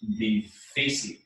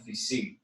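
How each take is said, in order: First: The stress is on the middle syllable. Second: The stress is on the last syllable. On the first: The speaker calls it right. "difícil is pronounced difícil and has an accent" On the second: The speaker calls it wrong. "Not difícil because it ends with an L"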